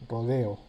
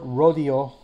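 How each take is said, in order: First: The word is said with a Spanish pronunciation. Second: The word is said with an English pronunciation. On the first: "comes from the Span Spanish rodeo" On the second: "this other word"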